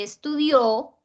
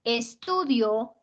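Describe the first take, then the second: First: "estudió" con fuerza en DIÓ, despacio; acento en la última. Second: "estudio" con fuerza en TU, despacio; acento en la penúltima. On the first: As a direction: carga la sílaba final de "estudió". ("estudió" pausado, es-tu-DIÓ) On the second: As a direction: carga la sílaba TU de "estudio". ("estudio" pausado, es-TU-dio) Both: Shown as a demonstration. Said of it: "no es lo mismo".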